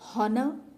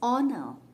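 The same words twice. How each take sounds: First: The word begins with an audible h sound. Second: The word begins directly with a vowel sound. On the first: The speaker calls it wrong. "We don't say" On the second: The speaker calls it right. "H is silent"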